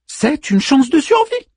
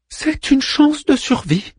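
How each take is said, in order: First: High voice, rising at the end; Manmut's first answer. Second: High, slow falling delivery; Manmut repeating himself. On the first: Manmut offers Orpheus a chance, high rising answer. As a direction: answer brightly pitched, lifting the final word. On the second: Manmut repeats the hope to Orpheus, high and slow. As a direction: repeat it slowly and deliberately, pitched up. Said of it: "répéta-t-il". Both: A narrator's reading.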